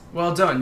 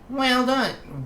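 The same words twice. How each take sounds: First: It is said in the speaker's normal voice. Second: It is said in a put-on character voice.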